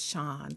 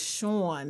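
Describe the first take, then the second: First: It is said with a Southern US accent. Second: It is said with a northern Philly accent.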